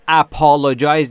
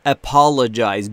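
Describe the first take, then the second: First: The unstressed vowel is a full vowel. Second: The unstressed vowel is reduced to schwa. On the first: The speaker calls it wrong. "apologize نیست" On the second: The speaker calls it right. "بین ا و ا شواست در حقیقت صداش"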